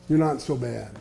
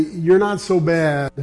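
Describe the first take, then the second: First: "You're not so bad" repeated softer and lower; hushed repeat of "You're not so bad"; soft echo. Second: "you're not so bad" said slowly and deliberately; preacher spelling out "you're not so bad"; slow emphatic. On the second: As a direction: lean on "you're" with a slow, firm delivery. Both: Shown as a demonstration.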